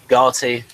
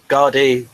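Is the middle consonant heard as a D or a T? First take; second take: T; D. First: The middle consonant sounds like a T. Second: The middle consonant sounds like a D. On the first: "it's definitely a T" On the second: "You saying Gardy with a D?"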